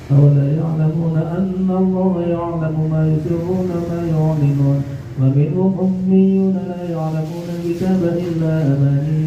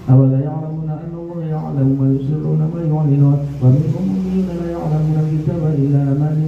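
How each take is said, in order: First: It is recited at a moderately quick pace. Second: It is recited very quickly. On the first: "Kalau mau cepat lagi" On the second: "itu lebih cepat"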